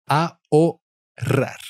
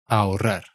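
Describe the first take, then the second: First: "Ahorrar" slowly in pieces, a-o-rrar, silent H, higher; syllable-by-syllable pronunciation. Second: Said in the usual way. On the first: Shown as a demonstration. Teacher shows learners the silent H and double R, "Ahorrar" slowly split as a-o-rrar. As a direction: break "Ahorrar" into a, o, rolled rrar, pitched up. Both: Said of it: "So you never pronounce the H".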